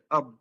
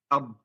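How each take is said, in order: Both takes have the same delivery.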